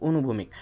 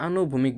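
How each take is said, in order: First: অনুভূমিক said with a short "o" at the start; careful correction অনুভূমিক, short "o" opening; corrected pronunciation. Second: আনুভূমিক said with a long open "aa" at the start; the slip আনুভূমিক, first vowel drawn out as "aa"; casual slip আনুভূমিক with a long "aa" opening; slipped pronunciation. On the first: Shown as a demonstration. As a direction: fix it to অনুভূমিক with a clipped first vowel. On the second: Real, not acted. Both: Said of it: "আমার উচ্চারণটা একটু ব্যাকা হয়ে যাচ্ছে".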